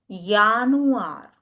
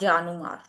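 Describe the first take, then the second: First: It begins with a 'y' sound. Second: It begins with an English 'j' sound. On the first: The speaker calls it right. "J is year in German" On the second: The speaker calls it wrong. "Not Januar"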